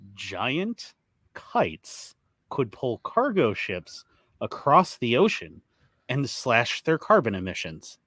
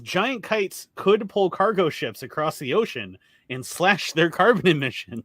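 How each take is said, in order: First: The headline is read slowly and deliberately. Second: The headline is read at normal speed.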